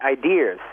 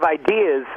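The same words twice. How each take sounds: First: It is said Boston-style with an added R. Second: It is said without an added final R.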